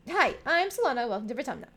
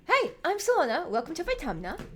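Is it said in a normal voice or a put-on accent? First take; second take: normal voice; put-on accent. First: It is said without the character accent. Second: It is said in the character's put-on accent.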